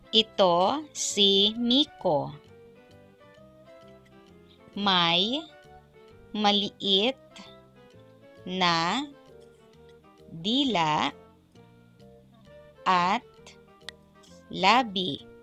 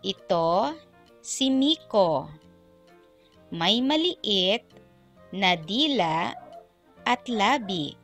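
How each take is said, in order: First: It is read at a slower, ordinary pace. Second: It is read at a noticeably faster pace.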